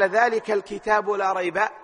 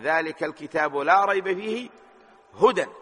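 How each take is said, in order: First: The pause comes right after 'la rayb'. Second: The pause comes right after 'fihi'.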